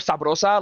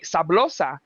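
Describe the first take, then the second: First: The middle consonant is an R sound. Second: The middle consonant is an L sound.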